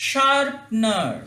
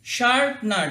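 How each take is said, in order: First: শার্পনার drawn out very slowly; slow model word. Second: Said in the usual way. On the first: Shown as a demonstration. (ধীরে উচ্চারণ, শার্পনার) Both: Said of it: "এরকম করে".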